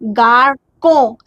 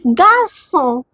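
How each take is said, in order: First: The middle consonant is a hard k sound. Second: The middle consonant is a soft s sound. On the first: The speaker calls it wrong. "If this accent is not here, so what, how uh, we can pronounce this?" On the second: The speaker calls it right. "the sound is S, not K"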